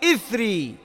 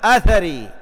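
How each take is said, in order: First: The word begins with an 'i' vowel. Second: The word begins with an 'a' vowel. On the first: "ويصح كسرها في إثري مع التسكين للثاء المثلثة" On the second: "بفتح الهمزة أثري"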